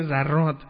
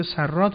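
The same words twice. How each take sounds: First: "زراد" said with a voiced z at the start; z sound opening "زراد", doubled r; pronounced with z. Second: "سراد" said with an unvoiced s at the start; s sound opening "سراد", doubled r; pronounced with s. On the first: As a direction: begin "زراد" on a buzzing z. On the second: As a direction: begin "سراد" on a crisp s. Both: Shown as a demonstration. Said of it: "حالا این سین گاه به ز".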